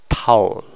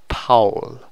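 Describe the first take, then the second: The two takes are said the same way.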